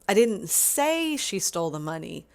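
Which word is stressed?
say. The stress is on the word say.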